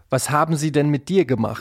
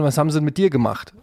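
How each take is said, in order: First: Every word is pronounced fully and carefully. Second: The words are reduced and run together casually. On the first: This sounds like stiff scripted dialogue. The speaker calls it wrong. "Und nicht" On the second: This is how people naturally talk. The speaker calls it right. "Also ich sag ja dann auch"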